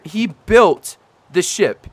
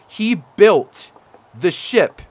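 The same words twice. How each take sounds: First: Slow, with "built" hit hard and drawn out; stress on built. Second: Said in the usual way. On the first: Real, not acted. Insisting to viewers a fan really did build it, "built" stressed. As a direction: land on "built" to sell how impressive it is. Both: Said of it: "No, ser".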